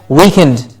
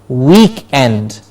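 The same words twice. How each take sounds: First: It sounds like the word weakened. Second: It is said as week plus end. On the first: The speaker calls it wrong. "this sometimes is mispronounced and we hear weekend" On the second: The speaker calls it right. "with a stress on week"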